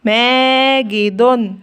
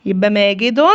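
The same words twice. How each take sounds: First: ماجد drawn out slowly, ending in مَاجِدٌ with the nunation; syllable by syllable. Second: Said in the usual way. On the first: Shown as a demonstration. Teacher repeating the example word for children, drawn out. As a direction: say ماجد long and slow, like dictation. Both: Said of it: "زي كلمة إيه؟".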